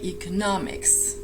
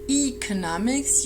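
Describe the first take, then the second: First: The stress is on the third syllable. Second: The stress falls before the third syllable. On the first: The speaker calls it right. "make sure the stress is on the third syllable" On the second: The speaker calls it wrong. "You do not say economics"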